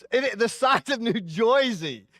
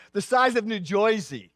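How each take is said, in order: First: New Jersey accent, Jersey said like "Joysey", slow and high. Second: Said in the usual way. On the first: Shown as a demonstration. Pastor mocks the New Jersey accent for the congregation, slow and high. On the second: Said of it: "and they don't talk that way".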